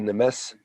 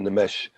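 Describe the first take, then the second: First: The word ends with a plain s sound. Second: The word ends with an sh sound. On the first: "Some people will say Nemes" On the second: "some will say say Nemesh"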